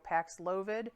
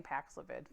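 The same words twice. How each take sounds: First: Paxlovid with a long OH, pax-LOH-vid; radio pronunciation. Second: Paxlovid with a reduced middle, PAX-luh-vid; preferred easier pronunciation. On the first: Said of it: "as they say on the radio". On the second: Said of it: "I just like saying". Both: Shown as a demonstration.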